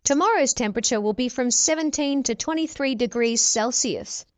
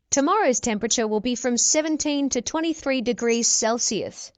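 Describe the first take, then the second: No difference in how they are said.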